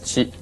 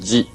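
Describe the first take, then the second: First: It is said with the Chinese pronunciation. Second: It is said with the Korean pronunciation. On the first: "Chinese pronunciation" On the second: "Korean pronunciation"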